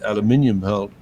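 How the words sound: The word is said with five syllables, aluminium.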